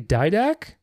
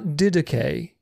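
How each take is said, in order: First: The first vowel glides like the English 'eye'. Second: The first vowel is a short pure 'ee' sound. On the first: This is the English way of saying the word. The speaker calls it right. "making the I a longer vowel because of the vowels following it" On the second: This is the original Greek way of saying the word. The speaker calls it wrong. "it's not didache, because di doesn't exist in English"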